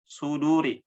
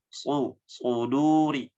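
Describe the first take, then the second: First: Suduri with light thin s; light sod; wrong thin sod. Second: Suduri with heavy dark s; slow, full thick suduri; thick sod; correct thick sod. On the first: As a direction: demo the error: thin Suduri. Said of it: "Nah, itu tipis". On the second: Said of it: "Tapi harus tebal". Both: Shown as a demonstration.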